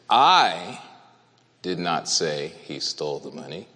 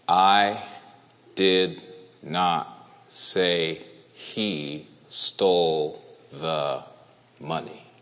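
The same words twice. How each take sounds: First: It is read with strong emphasis on one word. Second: It is read in a flat, unvarying pitch. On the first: "I did not say it. That's what it means" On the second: "monotone, on purpose, as an example"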